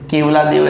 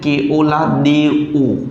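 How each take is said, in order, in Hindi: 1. नाम ऐसे बोला जाता है: Kev-la Dev। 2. नाम ऐसे बोला जाता है: Keo-la De-o। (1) "वैसे केवला देव ऐसा बोलते हैं उसको" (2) "इसको बोलते केओला देओ"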